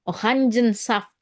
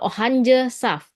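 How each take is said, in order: First: An n sound comes before saft. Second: No n sound comes before saft. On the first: The speaker calls it right. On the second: The speaker calls it wrong.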